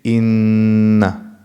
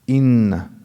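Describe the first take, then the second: First: The sound in the word is held longer. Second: The sound in the word is held briefly. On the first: "in tajweed we say إن. It's a bit longer" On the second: "they used to say"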